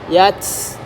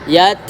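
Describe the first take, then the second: First: The final t ends in a strong hiss. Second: The final t has only slight breath. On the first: The speaker calls it wrong. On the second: The speaker calls it right.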